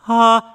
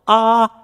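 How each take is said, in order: First: The vowel starts with a breathy h-like puff. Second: The vowel starts with a hard catch in the throat.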